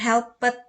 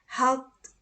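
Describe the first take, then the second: First: The ending is not pronounced as a t sound. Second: The ending is pronounced as a t sound. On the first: The speaker calls it wrong. "bukan seperti itu nyebutkannya" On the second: The speaker calls it right. "maka diucapkan bunyi teh"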